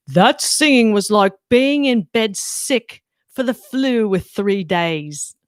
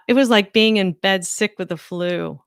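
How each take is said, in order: First: Bad put-on British accent, drawn out at the end; Simon Cowell. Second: Said in the usual way. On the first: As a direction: do a hammed-up British judge's verdict. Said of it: "My British accent is so bad". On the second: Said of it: "so that was my best Simon Cowell".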